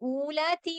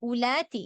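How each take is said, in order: First: The first vowel is drawn out long. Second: The first vowel is kept short. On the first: The speaker calls it wrong. "ഊലാത്തി എന്ന് പറയരുത്" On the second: The speaker calls it right. "ഈ വാവ് എന്താണ്? ഇവിടെ സൈലന്റ് ആണ്"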